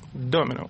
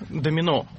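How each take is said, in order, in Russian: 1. Ударение на первом слоге. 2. Ударение на последнем слоге.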